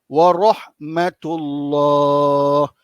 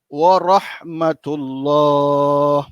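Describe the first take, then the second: No difference in how they are said.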